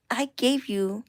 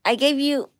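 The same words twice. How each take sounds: First: Said in the usual way. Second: "gave" hit louder and higher; indignant stress on gave; emphatic scold. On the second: Real, not acted. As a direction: punch "gave" at the pet. Scolding the pet, first take.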